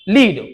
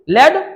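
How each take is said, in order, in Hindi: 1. स्वर लंबा है, जैसे see में 'ee'। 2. स्वर छोटा है, जैसे bed में 'e'। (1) "वर्ब है तब लीड" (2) "अगर ये नाउन हो गया तो ये लेड हो गया"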